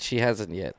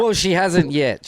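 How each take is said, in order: First: Quieter throwaway repeat of hasn't; quiet aside. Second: Said in the usual way. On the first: Shown as a demonstration. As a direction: drop the voice for the repeat.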